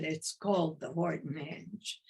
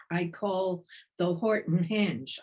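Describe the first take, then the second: First: "called" stressed, rising as a correction. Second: Said in the usual way. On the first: Real, not acted. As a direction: lean on "called" to correct yourself. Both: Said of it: "I don't call it".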